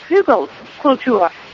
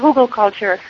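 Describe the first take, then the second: First: It is said with a German pronunciation. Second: It is said with an English pronunciation.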